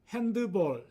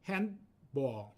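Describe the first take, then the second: First: It is said with three syllables. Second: It is said with two syllables. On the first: The speaker calls it wrong. "삼음절이 아니고요" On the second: The speaker calls it right. "이음절로 발음합니다"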